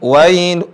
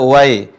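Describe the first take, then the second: First: The word ends with a clear final il sound. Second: The word ends without a clear final il sound. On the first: The speaker calls it right. "bukan wai, tapi pakai i" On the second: The speaker calls it wrong. "jangan sampai membaca wai"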